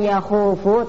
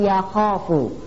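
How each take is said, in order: First: The vowel after kh is a u. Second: The vowel after kh is a long a. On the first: The speaker calls it wrong. "bukan yakhufu" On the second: The speaker calls it right. "tapi yakhofu"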